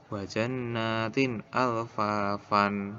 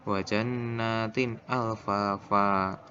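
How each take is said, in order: First: The last word ends with an n sound. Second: The last word ends with a long vowel. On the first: "Kalau lafalnya kan wa jannatin alfafan" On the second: "yang harus dibaca yang benar itu ini ketika di akhir kata"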